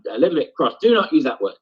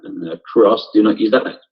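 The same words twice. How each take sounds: First: Mild anger, pitched higher. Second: Said in the usual way. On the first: Shown as a demonstration. Teacher demos John Tate turning from frustration to anger, mildly angry. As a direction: snap it out as the anger takes over. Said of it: "jump down to anger here". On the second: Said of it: "His first line here is".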